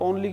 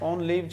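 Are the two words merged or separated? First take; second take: merged; separated. First: The two words blur together like 'only'. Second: The two words are said clearly and apart. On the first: The speaker calls it wrong. "ओनली ओनली मत बोलो" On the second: The speaker calls it right. "इसको सही बोलो आप"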